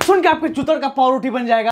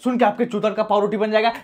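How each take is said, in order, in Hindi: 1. यह ज़ोर से, तेज़ और जोशीली ऊर्जा के साथ कहा गया है। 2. यह शांत, सामान्य ऊर्जा के साथ कहा गया है। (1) "कमान कमान कमान वन मोर टाइम" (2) "ऐसे नहीं ऐसे नहीं ऐसे नहीं"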